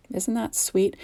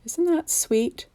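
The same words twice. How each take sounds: First: Said in the usual way. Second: Slow, high, cooing sweetness; cutesy coo. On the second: Real, not acted. Crafter cooing at her cute gnome card, high and slow.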